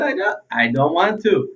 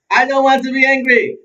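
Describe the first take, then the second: First: Said in the usual way. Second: High, loud, whining protest; petulant whine, pitched up and pushed out; whiny tone. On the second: Shown as a demonstration. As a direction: whine it like a sulky child. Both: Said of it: "And not in that tone of voice".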